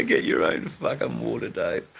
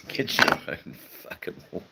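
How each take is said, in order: First: Said in the usual way. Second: Breathy whisper through laughter; laughing whisper. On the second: Real, not acted. Rereading a viewer's joke, whispering through laughter. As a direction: giggle the line under your breath.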